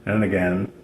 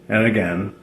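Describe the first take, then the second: No difference in how they are said.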